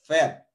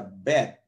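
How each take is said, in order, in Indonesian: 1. Diawali dengan bunyi v. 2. Diawali dengan bunyi b. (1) "ini dibaca vet, gitu, atau V" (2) "kalau dia ada titik di tengah, maka dibaca bet"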